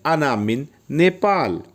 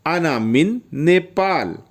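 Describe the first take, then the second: No difference in how they are said.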